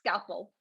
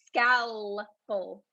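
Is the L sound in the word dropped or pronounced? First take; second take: dropped; pronounced. First: The L sound is left out. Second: The L sound is clearly pronounced. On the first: The speaker calls it wrong. "not scalpel" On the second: The speaker calls it right. "we do say the L"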